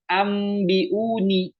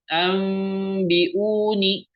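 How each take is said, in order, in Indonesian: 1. Bunyi m diucapkan dengan jelas tanpa penyamaran sengau. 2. Bunyi m tersamar dengan bunyi sengau yang panjang. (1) "bukan ambiuni" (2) "Harus diikhfakan. Harus disamarkan"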